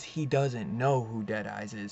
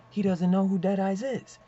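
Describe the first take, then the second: First: Said in the usual way. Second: "he doesn't know who Deadeyes is" pitched high and loud; insistent, high-pitched emphasis on all of "he doesn't know who Deadeyes is"; emphatic repeat. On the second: Real, not acted. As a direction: drive home "he doesn't know who Deadeyes is" in a raised, louder voice. Same point repeated for emphasis.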